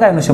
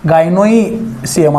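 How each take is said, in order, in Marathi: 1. मधला भाग 'shi' आवाजाने म्हणतात. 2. मधला भाग वेगळे 'e-si' आवाज देऊन म्हणतात. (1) "पण म्हणताना गायनोशियम म्हणायचं" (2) "असं असतंय"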